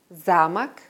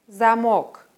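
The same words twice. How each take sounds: First: Замок said ZA-mak, stress on the first syllable; Замок as castle, first syllable stressed, final O reduced. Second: Замок said za-MOK, full O in the stressed second syllable; замок as lock, second syllable stressed; stress on last syllable. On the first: Teacher contrasting homographs, first-syllable stress. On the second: Teacher contrasting homographs, second-syllable stress. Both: Shown as a demonstration. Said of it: "Den Unterschied erkennt man an der Aussprache".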